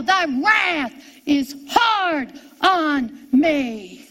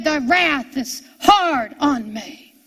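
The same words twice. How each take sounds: First: Drawn-out cry, word by word. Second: Said in the usual way. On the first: Retold or imitated. Preacher voices Jesus crying out in hell, slow drawn-out cry. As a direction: cry it out very slowly, stretching each word. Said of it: "Jesus cried out in hell". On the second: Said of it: "Jesus said".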